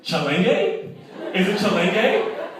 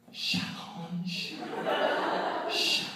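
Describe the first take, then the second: First: "Chalenge" said as chal-ENG-gay, higher and louder, laughing; mispronounced name. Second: Whispered, puzzled reading of the name tag; mock puzzled whisper. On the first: Retold or imitated. Partygoers guessing the name aloud as chal-ENG-gay. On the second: Partygoers reading the name tag, whispered and puzzled. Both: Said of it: "they're like".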